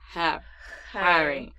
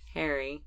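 First: The H at the start is strong and throaty. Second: The H at the start is barely voiced. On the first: "But he says" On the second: "I barely, like, voice the H or, like, make the H prominent"

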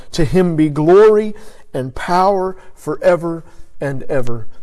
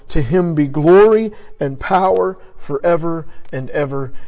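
The two takes are said the same way.

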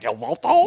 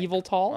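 First: The name does not begin like 'evil'. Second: The name begins like the word 'evil'. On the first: "I'm always like" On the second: "it's like evil"

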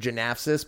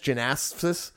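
First: The title is said without the extra S sound. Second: The title is said with the extra S sound. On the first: The speaker calls it wrong. "for years we've said" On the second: The speaker calls it right. "there's an extra S in there. It's"

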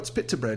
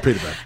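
First: It is said in a British accent. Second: It is said in an American accent.

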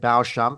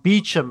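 First: The name begins with a 'bo' sound. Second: The name begins with a 'bee' sound. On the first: The speaker calls it wrong. "not like I said" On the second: The speaker calls it right. "[name] from Beecham Estates"

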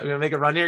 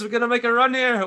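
First: It is said in a plain, unaccented voice. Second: It is said in a put-on Australian accent.

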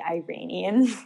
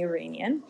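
First: The word is pronounced in the American way. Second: The word is pronounced without American styling. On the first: The speaker calls it wrong. "as Americans say" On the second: The speaker calls it right. "it's definitely Iranian"

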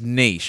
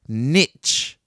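First: The word is said in a French way. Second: The word is said in an English way. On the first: The speaker calls it right. "I think it's a French word that should be said in a French way" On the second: The speaker calls it wrong. "you could say it like this, niche. But I think that's wrong"

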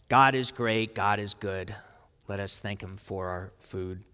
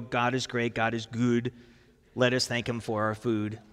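First: It is said in the speaker's ordinary accent. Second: It is said in a put-on Swedish accent.

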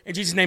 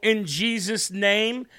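First: The phrase is rushed through very quickly. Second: The phrase is said slowly and clearly. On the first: The speaker just wants to be done. The speaker calls it wrong. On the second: The speaker means the words. The speaker calls it right.

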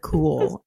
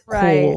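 First: Cool is said in the speaker's usual accent. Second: Cool is said in an imitated regional accent. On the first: This is the speaker's own usual way. "instead of cool" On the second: This is how someone from elsewhere says it. "Meredith says cool"

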